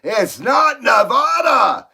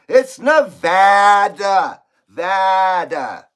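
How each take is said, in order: First: Nevada said the wrong way, shouted slowly; mock-angry correction of Nevada; hammed-up yell over Nevada. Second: Nevada said the right way, slow and loud; slow emphatic Nevada. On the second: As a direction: insist on the proper Nevada. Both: Shown as a demonstration. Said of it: "everybody says Nevada".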